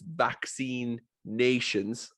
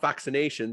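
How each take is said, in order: First: It is said as two words. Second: It is said as one word. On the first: It means countries that are vaccinated. The speaker calls it right. "as in nations as a country" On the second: It means the act of giving vaccines. The speaker calls it wrong. "but not vaccinations"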